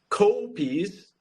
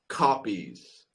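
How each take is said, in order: First: The first vowel is not an open 'ah'. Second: The first vowel is an open 'ah'. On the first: The speaker calls it wrong. "Not copies" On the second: The speaker calls it right. "It's like a ah"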